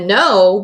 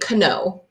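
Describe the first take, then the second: First: The word starts with a plain N sound. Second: The word starts with a K sound before N. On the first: The speaker calls it right. "I hear the no, but not the K" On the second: The speaker calls it wrong. "I don't say kno"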